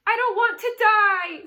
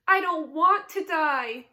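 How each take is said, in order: First: High, loud, wild scream. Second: Slow, loud, higher tearful moan. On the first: Pig screaming as he throws himself down. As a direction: fling the words out in panic. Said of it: "screamed Wilbur". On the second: Pig moaning in tears about dying. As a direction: draw the words out in misery. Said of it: "he moaned". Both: A narrator's reading.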